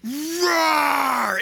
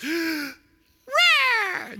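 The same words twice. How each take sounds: First: Long, mighty lion roar; Mufasa. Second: High, squeaky little cub roar; Simba. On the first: Lion king defending his son, big sustained roar. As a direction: roar to send the enemy flying. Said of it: "there's this other roar that goes". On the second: Cub showing off for his girlfriend, high puny roar. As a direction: try to scare them with a feeble roar. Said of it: "he's gonna scare them and frighten them. So he goes". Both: Acted.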